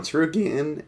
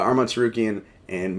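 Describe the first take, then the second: First: Voice crack. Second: Said in the usual way. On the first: Real, not acted. Podcaster redoing his take on Gamrot's wins, voice cracking. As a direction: voice cracks upward on Tsarukyan. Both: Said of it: "voice crack there".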